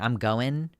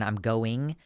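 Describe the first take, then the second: First: The word ends in a plain -in sound. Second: The word ends in a full -ing sound. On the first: "I have stopped pronouncing the ing" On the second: "rather than I'm going"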